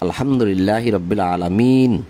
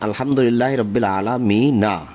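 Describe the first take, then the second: First: The last word ends without its final vowel. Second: The last word ends with a final vowel. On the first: The reader stops at this point. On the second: The reader continues without stopping.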